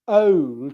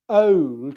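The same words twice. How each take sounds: First: The vowel glides from a schwa upward. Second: The same.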